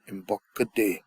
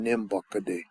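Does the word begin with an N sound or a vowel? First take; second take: vowel; N sound. First: The word starts with a vowel sound. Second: The word starts with an N sound. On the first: "They'll drop the N" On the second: "instead of saying nimbuckaday"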